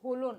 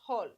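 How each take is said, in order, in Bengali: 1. শব্দটি o স্বরধ্বনি দিয়ে শেষ হয়। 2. শব্দটি l ব্যঞ্জনে শেষ হয়। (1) "এখানে কিন্তু হলো না" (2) "উচ্চারণটা হবে হল"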